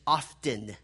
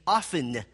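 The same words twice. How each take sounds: First: The T in the middle is pronounced. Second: The T in the middle is silent.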